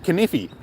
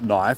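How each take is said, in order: First: It is said with k sounded and extra syllable. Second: It is said as one syllable, silent k. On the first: "It says kniffy" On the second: "that's not knife"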